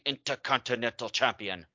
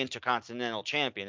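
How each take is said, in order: First: The consonants are crisp and strongly emphasized. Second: The consonants are said in an ordinary way. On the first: "she really puts emphasis on the consonants the way they do in German" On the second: "It's not the Intercontinental Champion"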